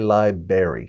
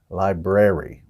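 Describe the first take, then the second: First: The second R sound is left out. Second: The second R sound is clearly pronounced. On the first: The speaker calls it wrong. "We don't say library. Some people pronounce it berry" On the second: The speaker calls it right. "there's another R in there, so it should be library"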